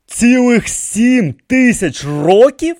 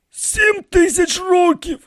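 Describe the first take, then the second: First: High, slow, rising disbelief; astonished question. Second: Very high, slow falling statement; musing old priest. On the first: King hears the priest's age, astonished. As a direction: stretch it out loudly, rising at the end. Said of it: "спитав вражений король". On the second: High priest estimates his age, slow and musing. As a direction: state it slowly, as a tentative guess. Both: A narrator's reading.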